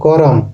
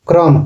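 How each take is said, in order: First: A vowel separates the k and the r. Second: The k and r form one cluster. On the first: This is the Nagpuri form. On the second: This is the standard Hindi form.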